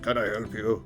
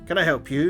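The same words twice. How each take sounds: First: It is said in a put-on deep voice. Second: It is said in a normal speaking voice.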